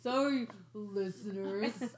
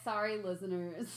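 First: It is said grudgingly, with sarcastic vocal air quotes. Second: It is said as a plain, sincere apology.

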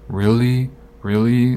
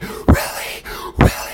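First: It is said calmly and mildly. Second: It is said heatedly and intensely.

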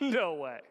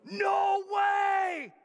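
First: It sounds flatly dismissive, a refusal. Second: It sounds amazed and excited.

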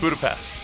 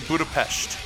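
First: It is said with an everyday English pronunciation. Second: It is said with an Eastern European pronunciation. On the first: "They don't say Budapest, like you or I would say" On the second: "People from Eastern Europe, they say Budapest"

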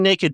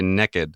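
First: It is said in the speaker's own accent. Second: It is said in a Texan accent.

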